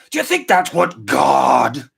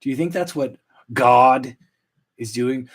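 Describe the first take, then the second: First: Slow, put-on movie devil rant; Al Pacino. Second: Said in the usual way. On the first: Host musing on God and fishing, hammed-up Pacino impression. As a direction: drag it out like a ranting screen devil. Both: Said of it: "Al Pacino and Devil's Advocate impression".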